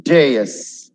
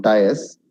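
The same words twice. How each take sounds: First: "Dais" said as day-is; correct dais. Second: "dais" split as die-us, the wrong way. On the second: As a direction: show the error: "dais" as die-us. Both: Shown as a demonstration. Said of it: "Not dais".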